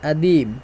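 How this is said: The first consonant is dropped.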